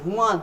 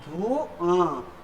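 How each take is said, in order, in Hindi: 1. अनुनासिक ध्वनि पहले अक्षर पर आती है। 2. अनुनासिक ध्वनि अंतिम दीर्घ स्वर पर आती है। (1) "अशुद्ध" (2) "इस प्रकार से पढ़ा जाएगा कि धुआं"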